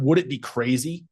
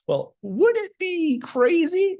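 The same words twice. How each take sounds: First: "Would it be crazy?" at normal pitch with little lift on "would"; flat version. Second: "Well, would it be crazy?" with "would" swooping much higher and drawn out slowly; curious inflection. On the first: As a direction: say "Would it be crazy?" level, no playful swoop. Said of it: "No, it's very different". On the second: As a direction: stretch the "would" up high and let "crazy" rise as a gentle question. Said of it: "You hear how my inflection goes". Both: Shown as a demonstration.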